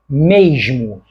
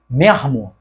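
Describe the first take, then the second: First: The consonant before m sounds like zh. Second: The consonant before m sounds like r. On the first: Speakers with more schooling say it this way. "tendem a pronunciar esta palavra como mesmo" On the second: Speakers with less schooling say it this way. "pessoas cariocas menos escolarizados pronunciam a mesma palavra como mermo"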